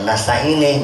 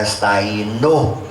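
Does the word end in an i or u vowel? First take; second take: i; u. First: The word ends with an i vowel. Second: The word ends with a u vowel. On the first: The speaker calls it wrong. "jangan nasta'ini" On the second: The speaker calls it right. "karena nasta'inu"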